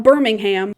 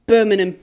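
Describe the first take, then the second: First: "Birmingham" with a fully sounded "ham" ending; American-style "Birmingham", every syllable spelled out; American pronunciation. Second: "Birmingham" as a loud British "BUR-min-um"; British-style "Birmingham", no "ham" at the end; British pronunciation. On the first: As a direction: say "Birmingham" loudly, stressing out the "ham". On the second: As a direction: say "Birmingham" with the ending swallowed to "um". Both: Shown as a demonstration. Not Birmingham, Birmingham.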